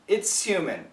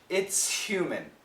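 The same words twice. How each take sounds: First: The word 'human' starts without an H sound. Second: The word 'human' starts with a clear H sound. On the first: "with no H" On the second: "most Americans will keep the H"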